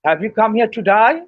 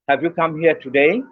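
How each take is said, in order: First: It is said in an Australian accent. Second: It is said in a standard British accent. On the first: It sounds like asking whether you came to die. "the Australasians would say" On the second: It asks whether you came here today. "That would be in R P, that would sound as"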